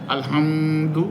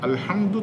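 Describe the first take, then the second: First: The mim sound is held long and slow. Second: The mim sound passes quickly without holding. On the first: The speaker calls it wrong. "পড়া যাবে না" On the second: The speaker calls it right. "তাড়াতাড়ি"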